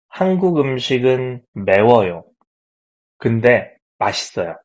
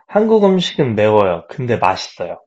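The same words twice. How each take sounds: First: It is read at a normal pace. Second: It is read a little faster.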